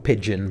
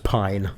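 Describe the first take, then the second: First: The name sounds like the word pigeon. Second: The name sounds like the word pine. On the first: The speaker calls it wrong. "a band who I call Pigeon" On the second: The speaker calls it right. "it's actually pronounced Pine"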